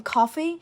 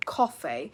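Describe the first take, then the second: First: COFFEE with an open unrounded "ah", like "cahfee"; American vowel. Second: COFFEE with a short rounded O; British vowel. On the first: Teacher showing what sounds American, open vowel. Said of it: "that will sound very American". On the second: Teacher showing what sounds British, rounded vowel. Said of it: "Now that sounds British". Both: Shown as a demonstration.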